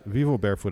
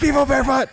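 First: It is said at normal speaking volume. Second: It is shouted very loudly.

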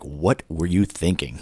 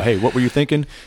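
First: It sounds like a stern, accusing scolding. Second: It sounds like a light, genuine question.

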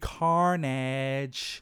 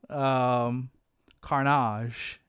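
First: The word is pronounced in the usual way. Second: The word is pronounced in an odd, unusual way. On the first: The speaker calls it right. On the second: The speaker calls it wrong.

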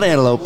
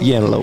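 First: The word begins with a plain vowel sound. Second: The word begins with a y sound. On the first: The usual way the word is said. "Not antelope" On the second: The way a small child said it.

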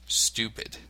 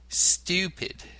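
First: The vowel is a plain oo sound. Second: The vowel starts with a y sound. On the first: This is the American way of saying it. The speaker calls it wrong. "not oo as in the American accent" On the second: This is the British way of saying it. The speaker calls it right. "the U in stupid and duty is pronounced with a Y sound"

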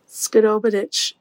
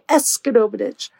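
First: The first part is a silent in-breath. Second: The first part esk is spoken aloud. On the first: The speaker calls it right. "you don't pronounce the esk. The esk is actually a breath in" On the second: The speaker calls it wrong. "you say Eskerobidich"

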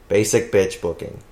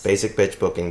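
First: It is said at a normal pace. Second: It is said fast.

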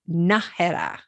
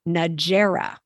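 First: The name is said with Spanish pronunciation. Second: The name is said with English pronunciation. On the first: The speaker calls it right. "It's Najera" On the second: The speaker calls it wrong. "often pronounced in English, which is not correct"

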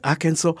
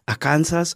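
First: The ending sounds like the word saw. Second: The ending sounds like the word Kansas. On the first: The speaker calls it right. "no, it's Arkansas" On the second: The speaker calls it wrong. "I know Kansas... and there's another state, Arkansas"

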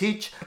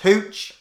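First: The vowel sounds like 'ee', in a South African accent. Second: The vowel sounds like 'oo', in a plain accent. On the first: The speaker calls it wrong. "Hello, I'm from South Africa. You keep saying Heech" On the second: The speaker calls it right. "It's Hooch"

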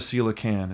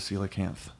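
First: The word ends with a plain n sound. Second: The word ends with a lisped th sound. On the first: The speaker calls it wrong. "It's not a coelacan" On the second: The speaker calls it right. "it's a coelacanth. It's got a lisp"

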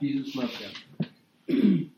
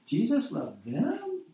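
First: It is said flatly, falling at the end. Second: The voice rises at the end, questioning. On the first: It is simply a fact. "it would end with a period, right? You know, it's just a fact" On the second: It is hard to believe. "say it with a question mark"

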